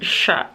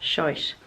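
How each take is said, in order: First: The word is said in her usual accent. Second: The word is said in an Irish accent.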